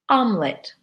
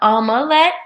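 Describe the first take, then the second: First: The word is said with two syllables. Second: The word is said with three syllables. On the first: The speaker calls it right. "we pronounce it omelet" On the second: The speaker calls it wrong. "not omelette"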